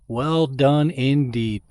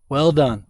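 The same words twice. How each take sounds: First: Drawn-out, savoring each word; slow emphatic praise. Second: Said in the usual way. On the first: Real, not acted. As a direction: stretch it out with sincere pride. Praising sponsor, drawn out repeat.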